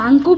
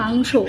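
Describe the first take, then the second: First: The word ends with a 'ko' sound. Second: The word ends with a 'sho' sound. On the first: This is how the child used to say it. The speaker calls it wrong. "আমাদের মাংকো ভাত ছেড়ে" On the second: This is how the child says it now. The speaker calls it right. "বাবাই বলছে মাংস"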